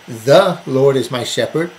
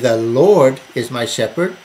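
First: The stress is on "The". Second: The stress is on "Lord".

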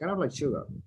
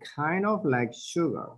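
First: The words are said fast and run together. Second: The words are said slowly and clearly separated. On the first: "in conversations, you will listen it like fast" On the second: "this is like a very clear pronunciation"

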